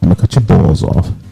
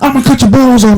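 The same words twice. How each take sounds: First: It is said in a calm tone. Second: It is said in an angry tone. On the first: The speaker calls it right. "You say it calm" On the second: The speaker calls it wrong. "you don't say it in anger"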